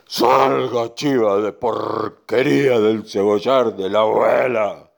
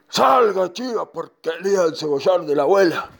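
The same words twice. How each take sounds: First: Slow, drawn-out command; bull ordering goat out. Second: Horse ordering goat out. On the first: Bull ordering the goat out of the onion patch, slow command. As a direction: stretch the order out forcefully. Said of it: "le dijo el toro". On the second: Horse ordering the goat out of grandma's onion patch, commanding. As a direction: call it out forcefully at the goat. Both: Acted.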